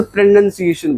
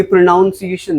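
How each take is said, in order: First: प्रोनंसिएशन with "nun" in the second syllable; correct pronunciation. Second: प्रोनाउंसिएशन with "noun" in the second syllable; wrong pronunciation. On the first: Teacher corrects the class, pronouncing प्रोनंसिएशन with "nun". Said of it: "इसे प्रोनंसिएशन बोलते हैं". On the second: Teacher shows class the common mistake, mispronouncing प्रोनाउंसिएशन with "noun". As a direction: say प्रोनाउंसिएशन with an "ow" vowel, like pronounce. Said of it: "ये प्रोनाउंसिएशन नहीं है". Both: Shown as a demonstration.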